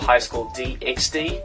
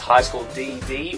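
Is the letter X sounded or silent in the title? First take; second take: sounded; silent. First: The X is spoken between the Ds. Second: The X is silent, only two Ds. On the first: "I've heard some people pronounce it as D X D" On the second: "the X is kind of silent"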